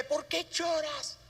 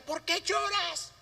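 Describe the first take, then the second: First: Tender murmur. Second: Put-on higher, drawn-out half shout at a crying child; a mother barking at her crying baby, a mild mock yell; mock scolding yell. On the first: Pretend. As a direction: coo it to a crying infant. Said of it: "le murmura al oído". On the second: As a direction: play an impatient mother snapping at the baby. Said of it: "se pare y le grita".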